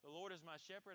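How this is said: The voice sounds hesitant and unsure. The speaker doubts it is true. The speaker calls it wrong. "don't say it in such a way where you're saying it like"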